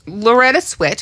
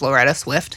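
First: Said in the usual way. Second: Swift with an f before the t; the mistaken Swift, f sounded clearly; wrong name. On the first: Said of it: "whose name I always thought". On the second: Shown as a demonstration. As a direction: Loretta Swift as she misremembered it. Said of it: "I always thought was Loretta Swift".

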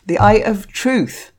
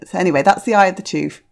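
First: Slow, deliberate "The Eye of Truth", every word clear; carefully re-say "The Eye of Truth" after the slip; careful correction. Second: Rushed slip, "the Eye of the Truth" with an extra "the"; quick stumble over "the Eye of the Truth", words blurred; tripped-up reading. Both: Real, not acted. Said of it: "I can't even talk proper".

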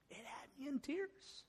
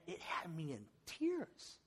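First: Much higher and softer, near tears; choked-up repeat. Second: Said in the usual way. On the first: Real, not acted. Pastor reliving the video for the church, voice breaking softly. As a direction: let the emotion catch the repeat.

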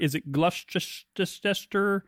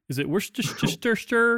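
First: Gloucestershire drawn out slowly, extra syllables; mock mispronunciation. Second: Worcestershire stretched out slowly, syllable by syllable; mock mispronunciation. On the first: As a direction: stumble slowly through "Gloucestershire" with made-up syllables. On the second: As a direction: drag out "Worcestershire" like a puzzled tourist. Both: Shown as a demonstration. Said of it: "hope you're pronouncing them right".

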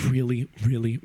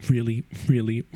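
Both takes have the same delivery.

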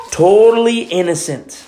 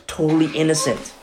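First: "Totally" leaned on, louder and higher; emphatic repeat. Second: Said in the usual way. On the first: Shown as a demonstration. Preacher insisting to the church that Jesus was innocent, emphatic. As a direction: hit "Totally innocent" harder.

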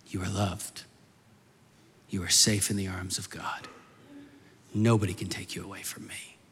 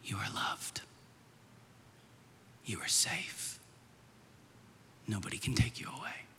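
First: Low, soft, voiced declaration; solemn reassurance. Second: Put-on hushed whisper into a sleeping child's ear. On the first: God's words echo the father's whisper. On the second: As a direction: whisper tenderly, with long pauses. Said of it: "I would whisper into her ear".

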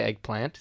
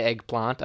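First: EGGPLANT with a short flat "a" as in ant; own short-a eggplant. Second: EGGPLANT with a long "ah", as "egg-plahnt"; the other person's eggplant. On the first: Shown as a demonstration. Comparing pronunciations with a friend, short-a eggplant. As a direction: say eggplant as "egg-plant", rhyming with ant. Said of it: "I'd say eggplant". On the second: Retold or imitated. Comparing pronunciations with a friend, long-ah eggplant. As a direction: stretch the a in eggplant to "ah". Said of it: "You would say eggplant".

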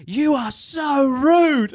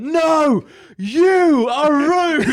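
First: High, slow, drawn-out mock outrage; mock indignant customer. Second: High, slow, louder sing-song comeback; mock retort. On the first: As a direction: imitate the huffy customer stretching every word. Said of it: "she was like". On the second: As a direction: throw the insult back in a high, slow mocking voice. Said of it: "And I just went".

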